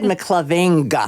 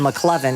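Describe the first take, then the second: First: The name ends with a clear g sound. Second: The name ends without a g sound. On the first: "He said McLoving instead" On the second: "instead uh, of McLovin"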